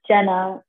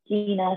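First: The first vowel sounds like 'Jen'. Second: The first vowel sounds like 'Jee'. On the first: The speaker calls it wrong. "People always say my name is Jenna" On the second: The speaker calls it right. "it's Gina"

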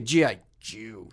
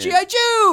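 First: It is said in a scornful, insulting tone. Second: It is said in a warm, excited tone.

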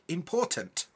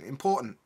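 First: The T in the middle is fully pronounced. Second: The T in the middle is a glottal stop. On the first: "we would never be like important" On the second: "There's no T in any of that"

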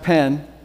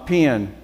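First: The vowel is the common North American one. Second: The vowel is the regional Southern one. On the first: This is how most of North America says it. "Apparently most of North America has a pen" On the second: This is how people from home say it. "you still have your peons. You know, my pen"

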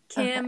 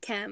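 First: The vowel sounds like the i in 'bit'. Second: The vowel sounds like the e in 'bet'. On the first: "she says Kim instead of Chem" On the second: "as in chemistry"

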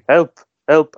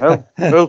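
First: The words are called out clearly. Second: The words are mumbled and muffled. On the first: He calls for help freely. "he's saying" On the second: His mouth is being covered. "he's mumbling"

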